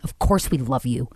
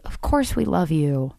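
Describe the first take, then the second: First: The voice sounds hostile and venomous. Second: The voice sounds warm and sincere. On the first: The words are meant as an attack. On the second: The words are meant kindly.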